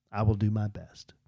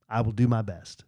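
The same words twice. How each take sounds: First: Hushed unvoiced whisper. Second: Quietly resigned; meek soft promise. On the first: Repeating the promise to fans in a whisper. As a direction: breathe it out meekly. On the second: Retold or imitated. Promising fans, soft and meek. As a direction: say it small and meek. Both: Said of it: "I'm like".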